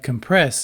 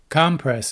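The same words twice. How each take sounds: First: The stress falls where the verb puts it. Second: The stress falls where the noun puts it. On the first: It names an action. "but compress is a verb" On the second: It names a thing. "Compress is a noun"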